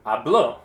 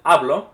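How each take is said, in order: First: Habló stressed on the end, ah-BLO; stress on last syllable. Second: Hablo stressed on the first syllable, AH-blo. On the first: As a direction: punch the final o of habló. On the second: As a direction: punch the start of hablo. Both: Shown as a demonstration. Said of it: "moving the accent back and forth".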